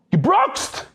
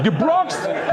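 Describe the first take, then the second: First: High retold scream of one word. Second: "Gebroxt!" yelled a bit higher, falling at the end; half-hearted retold scream, falling; mild mock yell. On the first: Husband screaming at his wife over gebroxt, high shouted retelling. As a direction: yell it up high as if horrified. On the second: Husband yelling at his wife again, mild mock yell. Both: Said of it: "He screams at her".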